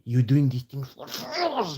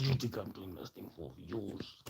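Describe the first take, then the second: First: Slow, higher mock accusation; mocking imitation. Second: Much softer, menacing comeback. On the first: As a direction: stretch it out, pitched up in mockery. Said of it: "they told me I'm". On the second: Real, not acted. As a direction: drop the volume and throw it back. Throws the accusation back at critics.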